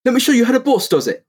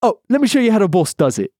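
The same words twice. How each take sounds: First: High cocky hero voice; Phoenix impression. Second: Raised cocky echo of the line; Phoenix impression. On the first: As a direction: brag like a swaggering agent. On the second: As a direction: swagger it back, pitched up. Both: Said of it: "That's Phoenix".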